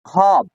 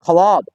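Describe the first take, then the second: First: ख्वाब said khaab, silent waw; right pronunciation. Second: ख्वाब with the w sounded, khwaab; wrong pronunciation. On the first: Teacher giving students the correct reading, silent waw. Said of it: "खाय अलिफ बे खाब". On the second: Teacher showing students the wrong reading, waw sounded. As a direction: say ख्वाब voicing the waw, as the mistake. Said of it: "लेकिन गलत है।". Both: Shown as a demonstration.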